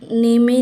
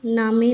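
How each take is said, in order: First: It has an ay vowel and a sounded final e. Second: It has an open a and a sounded final e. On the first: "नेमे नहीं" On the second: "नामे नहीं"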